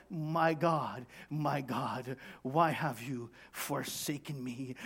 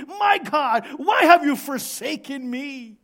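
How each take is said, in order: First: Subdued, lowered plea in pain; pained cry. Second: High, loud cry of suffering. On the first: Jesus in pain on the cross, subdued cry. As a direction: cry out weakly, voice held down. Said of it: "you're in pain right here". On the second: Sufferer crying out to God in pain, loud cry. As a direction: shout the plea at full force. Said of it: "cried out that way". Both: Acted.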